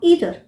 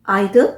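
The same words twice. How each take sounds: First: Either starting with a long "ee"; "ee-ther" pronunciation. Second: Either starting with an "eye" sound; "eye-ther" pronunciation. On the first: Teacher gives second of two correct forms, "ee-ther" pronunciation. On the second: Teacher gives first of two correct forms, "eye-ther" pronunciation. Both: Shown as a demonstration. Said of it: "दोनों ही pronunciation सही है".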